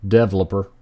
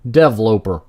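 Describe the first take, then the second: First: Said in the usual way. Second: 'Developer' said as DEV-loper, louder; typo reading. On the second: Shown as a demonstration. Player reading out a misspelt word, mock-literal pronunciation. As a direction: rhyme the end of 'Developer' with 'eloper'. Reads typo as spelt, devs elope.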